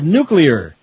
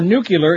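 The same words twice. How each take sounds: First: It is said like new-clear, without an extra vowel. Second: It is said like nucular, with an extra vowel. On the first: The speaker calls it right. "instead of nuclear" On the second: The speaker calls it wrong. "100 now for nuclear instead of"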